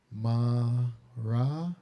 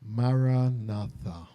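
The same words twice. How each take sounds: First: Maranatha in four evenly timed, slow syllables; equal syllables. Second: Maranatha said slowly, each sound clear; slow word. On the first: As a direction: give every syllable of Maranatha the same length. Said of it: "four syllables of equal lengths". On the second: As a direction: lay out Maranatha gently and slowly. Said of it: "remember the word". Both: Shown as a demonstration.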